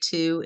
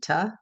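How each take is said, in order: First: The word has a full oo vowel. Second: The word has a weak uh vowel. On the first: This is the word said on its own. "will only say to in isolation" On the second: This is the word in connected speech. "in a sentence, it's most likely gonna say "ta.""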